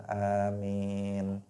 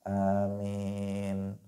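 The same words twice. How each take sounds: No difference in how they are said.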